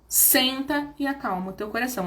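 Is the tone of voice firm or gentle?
gentle. The voice sounds soft and gentle.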